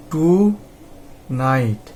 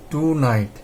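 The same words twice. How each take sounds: First: Long pause between টু and night; টু ... night as two detached syllables; broken into syllables. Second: Said in the usual way. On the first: Shown as a demonstration. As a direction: say টু, stop, then a separate falling night. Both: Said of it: "কনসোনেন্টের আগেই আমরা ভেঙে নেব".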